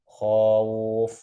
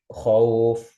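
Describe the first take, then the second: First: The vowel is stretched out with extra length. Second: The vowel is kept short and direct. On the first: The speaker calls it wrong. "ini kan nambah huruf, nambah alif" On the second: The speaker calls it right. "nggak perlu ditambah huruf, langsung masuk"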